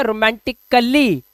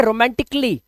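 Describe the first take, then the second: First: रोमांटिकली as "ro-man-tik-ka-lee"; wrong pronunciation. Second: रोमांटिकली as "ro-man-tik-lee"; correct pronunciation. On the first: Teacher shows the mistake in रोमांटिकली, "ka-lee" mispronounced. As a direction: add a full "ka-lee" to रोमांटिकली. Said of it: "अगर आप बोलते हैं तो गलत है". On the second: Teacher tells students to say रोमांटिकली as "romantik-lee", correctly pronounced. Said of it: "आपको बोलना है". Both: Shown as a demonstration.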